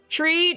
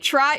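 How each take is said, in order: First: The vowel sounds like 'ee' in 'tree'. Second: The vowel sounds like 'eye' in 'try'. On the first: The speaker calls it wrong. "Why was I saying tree?" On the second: The speaker calls it right. "tri, triangle"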